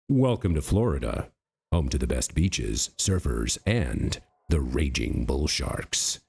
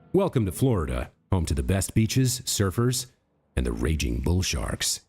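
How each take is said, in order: First: It is read in a deep, epic trailer voice. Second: It is read in a plain, ordinary voice.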